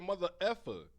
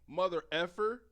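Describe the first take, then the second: First: The word ends without an 'r' sound. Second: The word ends with a clear 'er' sound. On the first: This is how the speaker's group says it. The speaker calls it right. "We say mother effer" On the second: This is how someone else said it. The speaker calls it wrong. "He said mother effer. We don't say the er"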